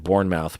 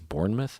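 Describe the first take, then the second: First: The name is pronounced just as it is spelled. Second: The name is pronounced differently from its spelling. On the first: This is how the written name looks. "Looks like Bournemouth" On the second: This is the guessed real pronunciation. "I'm guessing it's Bournemouth"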